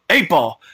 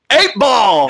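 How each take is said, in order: First: It is said at a normal volume. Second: It is screamed very loudly.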